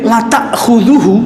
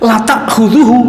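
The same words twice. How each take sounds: Both takes have the same delivery.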